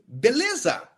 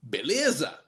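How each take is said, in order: First: It is said with a questioning tune. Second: It is said with a statement tune. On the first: Asks whether the other person is okay. "we use beleza as a question" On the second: Answers that everything is fine. "And then you answer"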